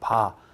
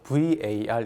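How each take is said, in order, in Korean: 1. 짧은 음절 하나로 읽습니다. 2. 한 글자씩 철자를 불러 읽습니다. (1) "구수하게 한국식으로 바 이렇게 읽도록" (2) "발음을 브이에이알로 하기엔 좀 거시기해요"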